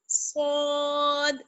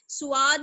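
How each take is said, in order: First: The first sound is thick and heavy. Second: An extra u-glide comes after the first sound. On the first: The speaker calls it right. "मोटा पढ़ना है, यानी पुर पढ़ना है" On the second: The speaker calls it wrong. "सुआद नहीं पढ़ना है"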